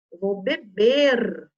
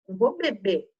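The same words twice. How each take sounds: First: "beber" drawn out slowly to a strong final R; final R sounded. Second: "beber" said as "bebê", no R at the end; dropped final R. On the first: Teacher correcting pupils, "beber" with the R fully sounded. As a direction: stretch "beber" and hold its last R. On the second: Teacher showing pupils the mistake, "beber" with the R eaten. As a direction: swallow the R of "beber", ending on the vowel. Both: Shown as a demonstration. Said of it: "comendo essa letrinha".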